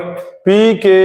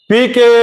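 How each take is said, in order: First: It is said somewhat more quietly. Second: It is said at its loudest. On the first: "उसके बाद हम बोले पी के, amplitude छोटा हो गया" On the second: "तो हम जब पहले बार बोले थे पी के तो हमारा एम्पलीट्यूड बड़ा था"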